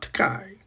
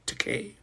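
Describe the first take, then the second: First: The last syllable does not rhyme with toupee. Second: The last syllable rhymes with toupee. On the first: The speaker calls it wrong. "not Takai" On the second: The speaker calls it right. "Takei, as in toupee"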